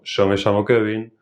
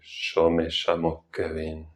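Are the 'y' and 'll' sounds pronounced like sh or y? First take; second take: y; sh. First: The 'y' and 'll' sound like English y. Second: The 'y' and 'll' sound like English sh.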